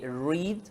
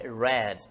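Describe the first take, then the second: First: It is pronounced as the present-tense form. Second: It is pronounced as the past-tense form. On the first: The action happens in the present. "no presente, só que se lê read" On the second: The action happened in the past. "quando ele é passado é read"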